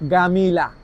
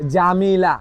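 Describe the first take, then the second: First: The word begins with a hard g sound. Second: The word begins with a j sound. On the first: This is the Egyptian Arabic form. "মিশরের ভাষা বলে গামিলা" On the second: This is the standard Arabic form. "সহি আরবিতে বলে কি? জামিলা"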